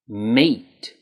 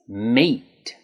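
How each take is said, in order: First: The vowel is long and tense, like in 'eat'. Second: The same.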